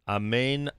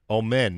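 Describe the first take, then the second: First: The first vowel is an open 'ah' sound. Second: The first vowel is a rounded 'oh' sound.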